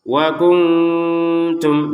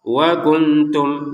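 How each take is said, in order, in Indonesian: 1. Bunyi n dilemahkan dan samar, diucapkan sengau. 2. Bunyi n diucapkan penuh dan jelas. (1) "harus ada samarnya... nah baru itu" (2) "mana samarnya? Enggak ada"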